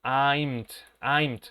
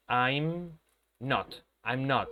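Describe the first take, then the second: First: "I'm t" said as a wrong clipped form, the not cut to a bare t; wrong contraction demo. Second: "I'm not" with not said in full after I'm; correct form. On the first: Teacher showing students the form that does not exist. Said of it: "No puedo decir". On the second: Teacher giving students the correct negative form. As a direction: say the right "I'm not", every sound of not clear. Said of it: "lo que uno va a decir es". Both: Shown as a demonstration.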